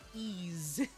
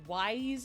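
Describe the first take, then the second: First: The name begins with a vowel sound. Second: The name begins with a w sound. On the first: The speaker calls it right. "apparently it's actually pronounced Ease" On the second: The speaker calls it wrong. "as I would initially pronounce it"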